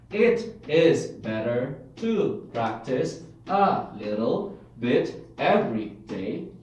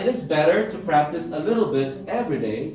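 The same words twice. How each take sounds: First: Each word is said separately, without linking. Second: The words run together as one connected stream. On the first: The speaker calls it wrong. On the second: The speaker calls it right.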